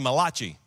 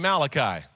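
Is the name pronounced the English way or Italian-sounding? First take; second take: Italian-sounding; English. First: The name is said with an Italian-sounding pronunciation. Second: The name is said with the usual English pronunciation. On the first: The speaker calls it wrong. "an Italian prophet named Malachi" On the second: The speaker calls it right. "his name is really Malachi"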